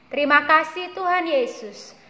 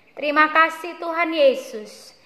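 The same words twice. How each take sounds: No difference in how they are said.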